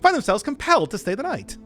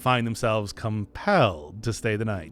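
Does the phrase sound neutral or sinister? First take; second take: neutral; sinister. First: The phrase is read in a light, neutral tone. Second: The phrase is read in a sinister, ominous tone. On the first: Guests simply end up staying over. The speaker calls it right. "that's a bit better" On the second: Guests are forced to stay against their will. The speaker calls it wrong. "That makes it sound more sinister than it is"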